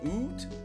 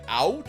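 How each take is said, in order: First: The vowel is a rounded 'oo' sound. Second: The vowel is a gliding 'ow' sound. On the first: This is the stereotypical Canadian way. "instead of oot" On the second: This is how Americans say it. "Americans tend to go, like, out"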